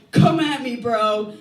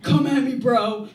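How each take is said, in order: First: Louder tough guy taunt. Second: Loud, higher bro challenge; tough guy taunt. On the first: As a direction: push the taunt harder. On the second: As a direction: bark the taunt at a big guy. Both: Retold or imitated. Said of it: "some six-foot-four dude going".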